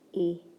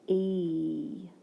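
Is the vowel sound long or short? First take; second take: short; long. First: The vowel is short, as in 'bed'. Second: The vowel is long, as in 'see'. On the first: "I know that E has a short vowel sound" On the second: "it has a long E sound"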